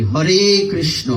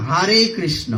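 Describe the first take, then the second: First: হরে said slowly as hore, round o; proper Bengali pronunciation. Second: হরে said as hare with an open a; foreigner's pronunciation. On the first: Shown as a demonstration. Preacher models the proper Bengali hore krishno. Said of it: "কত সুন্দর একটা শব্দ". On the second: Retold or imitated. Preacher mimics foreign devotees saying hare krishna. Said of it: "এটা হারে".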